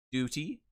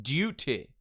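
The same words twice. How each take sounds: First: Said in the usual way. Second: DUTY as British 'dyoo-teh'; fluid J. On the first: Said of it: "the American Standard". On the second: Shown as a demonstration. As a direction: glide after the D in DUTY, crisp T. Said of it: "use the fluid J".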